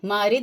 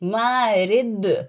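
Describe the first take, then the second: First: The final consonant stops flat without an echo. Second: The final consonant ends with an echoing bounce. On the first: The speaker calls it wrong. "मारिद रिद नहीं" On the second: The speaker calls it right. "खनक जैसी jerking sound produce होगी, इको जैसी"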